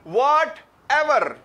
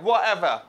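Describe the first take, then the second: First: The t sound is clearly pronounced. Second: The t sound is dropped completely. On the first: This is the form the learners are used to hearing. "हमें आदत है सुनने की" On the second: This is how British speakers say it. "इस तरह करके बोलते हैं वो एवर"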